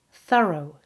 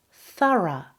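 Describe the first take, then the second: First: Thorough ending in a weak "oh"; American thorough. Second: Thorough ending in a short, weak "uh"; British thorough. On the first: Teacher contrasting American English, thorough with weak O ending. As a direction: say thorough as "THUH-roh", stress first. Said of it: "it's pronounced with a weak O". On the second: Teacher modelling thorough for learners, British "THUH-ruh". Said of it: "O becomes a. Th". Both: Shown as a demonstration.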